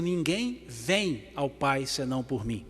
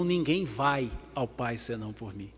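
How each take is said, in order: First: VEM set apart and drawn out slowly; stress on VEM. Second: VAI set apart as the wrong word; slow down and single out "vai", rest falls away softer; stress on VAI. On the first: Preacher quoting the verse as written, stress on VEM. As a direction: lean slowly on "vem", then finish the verse quietly. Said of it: "porque está escrito: ... E não". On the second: Preacher giving the wording that is not written, stress on VAI. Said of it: "E não". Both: Shown as a demonstration.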